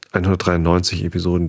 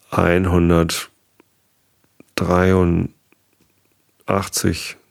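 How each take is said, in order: First: Said in the usual way. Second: Slow, stretched-out counting; hesitant, dragged count; drawn-out number. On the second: Real, not acted. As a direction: draw the number out while working it out.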